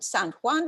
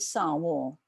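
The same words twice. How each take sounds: First: It is said with Spanish pronunciation. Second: It is said with French-like pronunciation.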